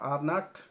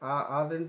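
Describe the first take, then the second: First: It is said as two separate words. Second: It is contracted into one single word. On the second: "आर नॉट को आरंट बोलता है"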